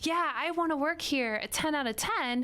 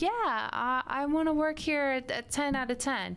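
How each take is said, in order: First: It is said smoothly and with confident enthusiasm. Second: It is said haltingly, with hesitant repetitions. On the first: The person really wants the job. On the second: The person is not truly eager for the job.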